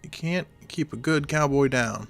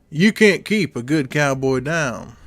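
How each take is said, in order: First: A weak, barely put-on cowboy voice. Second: A fuller, exaggerated put-on cowboy voice. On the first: The speaker calls it wrong. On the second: The speaker calls it right.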